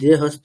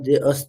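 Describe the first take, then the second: First: The second word begins with an h sound. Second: The second word begins directly with a vowel. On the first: The speaker calls it wrong. "এটা দে হস্ত না" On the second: The speaker calls it right.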